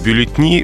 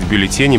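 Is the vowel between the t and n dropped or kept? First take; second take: dropped; kept. First: The vowel before the final syllable is dropped. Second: The vowel before the final syllable is kept. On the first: The speaker calls it wrong. "очень любят убирать гласную" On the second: The speaker calls it right. "надо говорить «бюллетени»"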